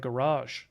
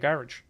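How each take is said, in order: First: It is said with an American pronunciation. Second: It is said with a British pronunciation.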